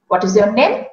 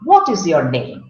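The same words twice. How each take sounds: First: The sentence has a Hindi-style intonation. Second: The sentence has an English-style intonation. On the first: The speaker calls it wrong. "I spoke it the same way as I would ask in my mother tongue" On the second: The speaker calls it right. "In English, the speaking pattern should have been"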